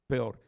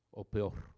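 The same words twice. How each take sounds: First: "Peor" said louder with a falling finish; stressed louder. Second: Said in the usual way. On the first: Shown as a demonstration. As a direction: hit "Peor" hard as the punchline. Preacher repeats for emphasis.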